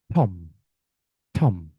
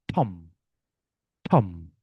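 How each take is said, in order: Both takes have the same delivery.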